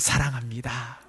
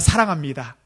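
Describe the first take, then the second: First: It sounds warm and full of affection. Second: It sounds flat and merely formal.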